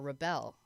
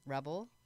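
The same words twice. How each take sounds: First: The stress is on the second syllable. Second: The stress is on the first syllable. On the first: To resist authority. "which we should be doing against" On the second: A person who resists authority. "Which you are"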